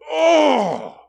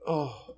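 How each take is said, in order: First: It sounds angry and indignant. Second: It sounds sad and sorrowful.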